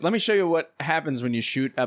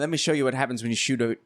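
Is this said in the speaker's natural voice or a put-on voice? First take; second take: natural voice; put-on voice. First: It is said in the speaker's natural voice. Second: It is said in an imitated character voice. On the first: The speaker calls it wrong. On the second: The speaker calls it right.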